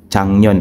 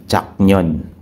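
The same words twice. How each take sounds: First: "Changnyon" with the k softened to ng; sound-change pronunciation. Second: "Chaknyon" with a hard k before the n; as spelled. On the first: Trainer modelling correct Korean for learners, "Changnyon" with ng sound. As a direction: say "Changnyon", nasal ng flowing into the n. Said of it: "bakit naging pronunciation niya is". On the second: Trainer showing learners the written Korean word, "Chaknyon" with unchanged k. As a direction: say "Chaknyon" letter by letter, keeping the k. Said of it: "instead of Chaknyon". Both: Shown as a demonstration.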